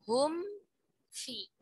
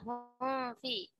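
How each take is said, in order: First: The m is fully finished before the f. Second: The m is blurred into the following f. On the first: The speaker calls it right. "tapi hum fi" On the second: The speaker calls it wrong. "Jangan sampai hum fi. Bukan hum fi"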